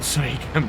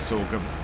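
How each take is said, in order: First: The first syllable sounds like 'soy'. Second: The first syllable sounds like 'sor'. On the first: The speaker calls it wrong. "not soygum" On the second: The speaker calls it right. "I of course know it's sorghum"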